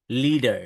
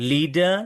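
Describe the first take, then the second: First: "leader" with final r sounded, falling; American pronunciation. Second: "Leader" with no final r, rising; British non-rhotic "Leader", lifted at the end; British pronunciation. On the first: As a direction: curl an r onto the end of "leader". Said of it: "American people pronounce it as". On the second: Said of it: "British পিপলরা লাস্টে যখন র". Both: Shown as a demonstration.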